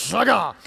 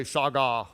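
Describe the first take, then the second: First: Shagah hit hard, punchy; with attitude. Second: Lower, limp shagah; without attitude. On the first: Preacher shows congregation the right way, with attitude. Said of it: "say it like that with attitude". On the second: Preacher shows congregation the wrong way, without attitude. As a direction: say shagah with no punch at all. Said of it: "It doesn't work if you say". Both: Shown as a demonstration.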